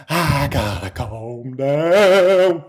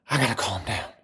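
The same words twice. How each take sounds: First: Very slow, stretched-out words; strained drawl. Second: Low, soft murmur to yourself; hushed self-soothing. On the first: Streamer failing to calm down, drawn-out self-talk. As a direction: drag out each word as the excitement creeps back. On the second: Excited streamer trying to calm down, hushed self-talk. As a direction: pull the energy right down. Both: Real, not acted.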